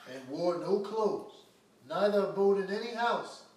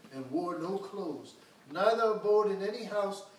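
The two takes are said the same way.

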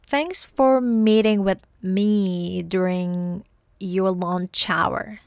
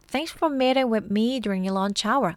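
First: It is read very slowly. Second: It is read at normal speed.

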